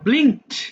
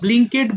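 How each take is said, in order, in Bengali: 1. শেষের অংশটা শুধু একটা কনসোনেন্ট, কোনো এক্সট্রা সিলেবল নেই। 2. শেষের অংশটা একটা এক্সট্রা সিলেবল হিসেবে বলা হয়। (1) "আমার সাথে আরেকবার বলো" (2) "এটা আবার ব্লিঙ্কেড বলো না"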